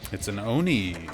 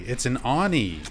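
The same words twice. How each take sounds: First: The first vowel is not like 'on'. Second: The first vowel sounds like 'on'. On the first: The speaker calls it wrong. "I was not pronouncing the Japanese word Oni correctly" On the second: The speaker calls it right. "it should be O as in like on, like an on switch"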